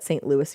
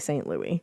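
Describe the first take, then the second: First: The name is said the way locals say it. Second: The name is said the way outsiders say it. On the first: The speaker calls it right. "apparently locals to Saint Louis say it like that" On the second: The speaker calls it wrong. "They don't like when you say Saint Louis"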